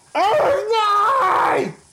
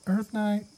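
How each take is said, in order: First: It is said loudly, like calling out. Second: It is said quietly and hesitantly.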